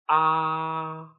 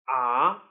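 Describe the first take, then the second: First: The pitch stays high and level. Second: The pitch rises from middle to high. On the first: "With the first tone, which is also called the flat tone" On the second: "With the second tone, which is also called the rising tone"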